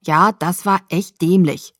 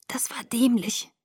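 First: Slow, emphatic, full-voiced rebuke; reproachful agreement. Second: Soft, slow, higher weak voice; murmured. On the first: Jacob agreeing with Bella about her stunt, emphatic reproach. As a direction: lean on each word as you agree. Friend scolding her after the rescue. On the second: Bella admitting her mistake to Jacob, feeble murmur. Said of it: "murmelte ich". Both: A narrator's reading.

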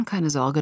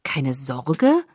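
First: Dismissive. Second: Disbelieving echo, rising sharply at the end; incredulous. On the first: Jacob brushes off her warning. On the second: Bella echoes Jacob's dismissal of the danger, incredulous. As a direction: repeat it as an unbelieving question. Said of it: "sagte ich ungläubig". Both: A narrator's reading.

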